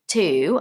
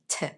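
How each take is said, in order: First: The vowel is a full, long 'oo' sound. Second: The vowel is short and weak, almost gone. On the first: "they are the same" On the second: "it becomes smaller. So the sound is smaller, which makes it sound like T"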